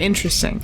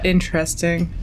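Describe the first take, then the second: First: The word sounds sincere and genuinely impressed. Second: The word sounds hesitant and politely skeptical. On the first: The speaker truly finds it interesting. "could be like genuine, like that's actually very interesting" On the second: The speaker finds it odd but is being polite. "like how uh, someone's aunt would say it"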